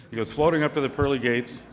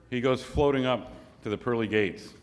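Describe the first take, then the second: First: FLOATING pushed a little higher and louder; insistent restatement. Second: Said in the usual way. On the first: Real, not acted. Storyteller repeats the setup to the audience, FLOATING said insistently. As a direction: restate it firmly, leaning on FLOATING.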